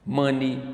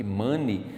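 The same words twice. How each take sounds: First: "Money" ending in a clear short "i" sound; correct English money. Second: "money" said as "monei", ending like "hey"; the wrong way: "money" with an "ei" at the end; wrong pronunciation of money. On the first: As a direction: say "Money" with a plain "i" at the end, no "ei". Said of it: "a pronúncia é I no final". ("Money" pronunciado certo, terminando em "i") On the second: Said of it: "a gente não pronuncia money". ("money" pronunciado errado, com "ei" no final) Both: Shown as a demonstration.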